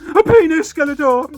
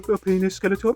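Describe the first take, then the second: First: It is said loudly and clearly. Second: It is said quietly and hesitantly.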